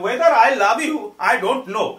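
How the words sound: It is said with a Banglish accent.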